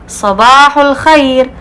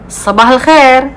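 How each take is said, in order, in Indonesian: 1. Ini diucapkan dengan lafal bahasa Arab fusha formal. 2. Ini diucapkan dengan lafal dialek Saudi. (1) "bahasa fusha ... terlalu kaku, terlalu resmi banget" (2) "kalau orang Saudi bilang"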